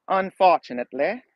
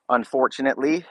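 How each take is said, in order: First: A light, vague put-on foreign accent on Unfortunately, pitch raised; unplaceable fake accent. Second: Said in the usual way. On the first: Shown as a demonstration. Streamer jokingly tries an odd accent on Unfortunately. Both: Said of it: "That's my very terrible accent".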